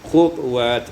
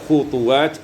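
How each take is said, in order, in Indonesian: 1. T dihentikan dengan pantulan ringan yang bergema. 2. Vokal mengikuti t di tengah.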